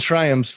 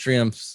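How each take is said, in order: First: The word is said the way it is spelled. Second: The word is said differently from its spelling. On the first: "they're spelled Triumphs" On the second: "but they're pronounced Triumphs"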